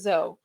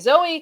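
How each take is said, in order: First: The name rhymes with Joe. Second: The name ends in an 'ee' sound. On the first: This is a misreading of the name. The speaker calls it wrong. "they rhyme it with Joe, and yeah, I don't like that" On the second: This is the name's intended pronunciation. The speaker calls it right. "you can call me Zoe"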